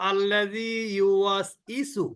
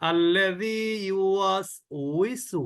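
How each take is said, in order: First: The last syllables start with no consonant. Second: The last syllables start with a w sound. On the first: The speaker calls it wrong. "এটাও কিন্তু না।" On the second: The speaker calls it right. "আমি মনে করি যে আমি এটাই সঠিক।"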